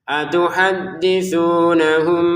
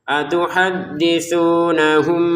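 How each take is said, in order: Both takes have the same delivery.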